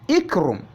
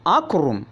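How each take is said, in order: First: The word begins with an i vowel. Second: The word begins with an a vowel. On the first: "not ikrum" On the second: "not akrum"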